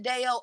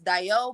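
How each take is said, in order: First: The name is said the American way. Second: The name is said the original Yoruba way. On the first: This is how people in America say the name. "I pronounce it Deo. Us in America, we pronounce it Deo" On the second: This is how the name is said in its origin. "it's kind of pronounced Dio"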